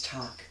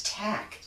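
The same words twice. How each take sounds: First: Toc said as "talk", with an aw vowel; the unwanted reading, "talk". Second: Toc said as "tack", with a short a; the preferred reading, "tack". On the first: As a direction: say "talk", rhyming with walk. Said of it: "I don't read that as talk". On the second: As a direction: say "tack", rhyming with back. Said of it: "I read that as tack". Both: Shown as a demonstration.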